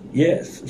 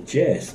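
First: The word begins with a 'y' sound. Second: The word begins with a 'j' sound. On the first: "when she would say yes, like, yes" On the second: "she would say Jess"

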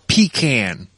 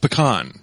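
First: The word is said in the Southern way. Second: The word is said in the non-Southern way. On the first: "some people, especially in the South, call it the pecan" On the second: "It's pecan"

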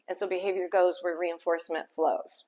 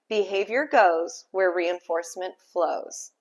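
First: It is said at normal conversational speed. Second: It is said slowly and deliberately.

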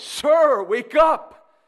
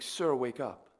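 First: It is said urgently, with a trembling voice. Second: It is said in a calm, steady voice.

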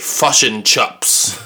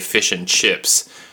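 First: It is said with a New Zealand accent. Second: It is said with an ordinary American accent.

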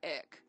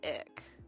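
First: The word is said flatly, in a monotone. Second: The word is said in a catty, snide way. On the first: "she's like monotone" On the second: "she didn't say it as catty as I just said it"

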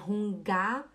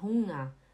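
First: The g after the nasal is sounded separately. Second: The ng is one smooth nasal sound. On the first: The speaker calls it wrong. "não é Hunga" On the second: The speaker calls it right. "é Hunger"

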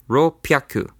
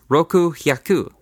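First: It is merged into rop and pyaku. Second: It is said as roku then hyaku, unmerged. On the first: The speaker calls it right. "it's actually spoken as ropyaku" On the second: The speaker calls it wrong. "You would think it would be spoken as roku hyaku"

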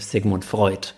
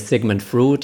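First: The vowel in the surname sounds like 'oy'. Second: The vowel in the surname is not 'oy'. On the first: The speaker calls it right. "you say Sigmund Freud" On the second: The speaker calls it wrong. "you don't say Sigmund Freud"

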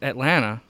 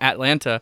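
First: Only the first T is pronounced; the second drops. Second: Both T sounds in the word are pronounced. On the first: This is how locals say the city name. The speaker calls it right. "you only pronounce that first T" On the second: This is how outsiders say the city name. The speaker calls it wrong. "they were calling it Atlanta"

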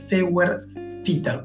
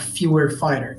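First: The word is pronounced in a German way. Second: The word is pronounced in an English way.

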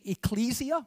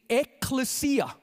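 First: It sounds like the start of ecclesiastical. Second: It sounds unlike the start of ecclesiastical. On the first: "Some people say ecclesia, like ecclesiastical" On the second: "And some people say ecclesia"

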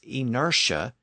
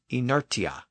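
First: The t is pronounced as an sh sound. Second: The t is pronounced as a t sound. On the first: This is the usual modern form. The speaker calls it right. "we pronounce I-N-E-R-T-I-A as inertia" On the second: This is not the usual modern form. The speaker calls it wrong. "and not inertia"

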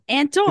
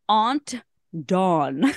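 First: Aunt is said in a thick Long Island accent. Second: Aunt is said in a non-New York way. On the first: This is how it is said where the speaker is from. The speaker calls it right. "So thick with the pronunciation as well" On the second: This is how outsiders expect it to be said. The speaker calls it wrong. "people want us to say Aunt Dawn or something, but that's not where I'm from"

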